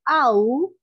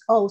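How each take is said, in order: First: The vowel is fuller and drawn out. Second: The vowel is short and clipped. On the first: The speaker calls it right. "sino owl, con una A más asentada" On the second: The speaker calls it wrong. "que no es owl"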